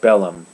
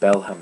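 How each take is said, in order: First: The name is said without an h sound. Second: The name is said with an h sound. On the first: The speaker calls it right. "There's no H there" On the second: The speaker calls it wrong. "I was saying Belham at first"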